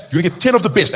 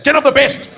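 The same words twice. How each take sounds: First: Said in the usual way. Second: TEN OF THE BEST pitched up high; high, emphatic imitated warning; emphatic mock threat. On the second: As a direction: repeat the dad's threat with more force. Dad's threat repeated for emphasis.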